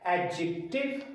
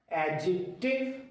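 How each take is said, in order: Both takes have the same delivery.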